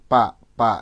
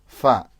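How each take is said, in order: First: The sound starts with both lips pressed together. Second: The sound starts with upper teeth on lower lip. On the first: The speaker calls it wrong. "fa-nya Bapak masih merapat pa pa ya" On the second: The speaker calls it right. "Harusnya fa"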